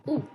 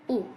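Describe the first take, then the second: No difference in how they are said.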